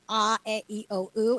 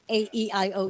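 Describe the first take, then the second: First: The vowels are said as pure Tagalog vowel sounds. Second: The vowels are said as English letter names. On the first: The speaker calls it right. "with the vowels in Tagalog, it's" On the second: The speaker calls it wrong. "It's not"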